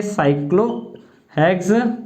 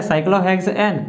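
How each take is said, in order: First: Slow cyclohexane with pauses between its parts; half-speed, broken-up cyclohexane; syllable-by-syllable dictation. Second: Said in the usual way. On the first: Shown as a demonstration. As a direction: stretch cyclohexane out for note-takers. Teacher dictates the term in pieces.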